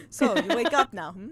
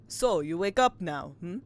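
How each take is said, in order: First: Put-on lighter, louder terrible Russian accent, amused; twink Russian sailor. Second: Hammy Russian sailor at normal pitch; terrible Russian accent. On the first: Player re-voicing the sailor as a twink, lighter comic Russian accent. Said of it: "Oh, he's a twink, sorry". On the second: Acted. Player voicing a Russian sailor before learning he's a twink, bad Russian accent. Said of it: "just a terrible Russian accent".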